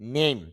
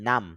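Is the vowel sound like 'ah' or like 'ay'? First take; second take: ay; ah. First: The vowel is said like 'ay'. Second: The vowel is said like 'ah'. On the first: The speaker calls it right. "IPO তে খুঁজি, তাহলে হবে ন এই নেই, তারপর ম" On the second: The speaker calls it wrong. "English দেখে আপনি বলতে পারবেন নাম"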